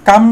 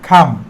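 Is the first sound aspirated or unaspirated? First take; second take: unaspirated; aspirated. First: The first consonant is said without a puff of air. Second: The first consonant is said with a puff of air. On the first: The speaker calls it wrong. "কাম না বলে" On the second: The speaker calls it right. "বলে খাম"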